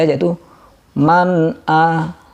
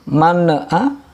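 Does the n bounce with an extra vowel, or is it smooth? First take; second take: smooth; bounced. First: The n is smooth with no extra vowel. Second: The n bounces with an extra vowel sound. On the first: The speaker calls it right. "tanpa mantul" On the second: The speaker calls it wrong. "kalau di sini ada ne"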